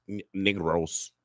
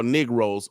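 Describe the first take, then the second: First: Slow, softer word in a put-on Spanish accent. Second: Said in the usual way. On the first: Shown as a demonstration. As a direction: draw it out with a mock Spanish accent. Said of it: "in my Spanish voice". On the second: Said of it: "oh yeah, in my Spanish voice".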